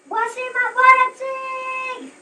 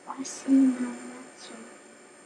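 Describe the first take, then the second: First: It is shouted loudly. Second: It is said at low volume.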